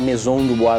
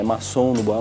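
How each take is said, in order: First: The first word sounds like 'maison'. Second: The first word sounds like 'masson'. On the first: The speaker calls it wrong. "tem gente que fala Maison du Bois, não é Maison" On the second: The speaker calls it right. "é Masson du Bois"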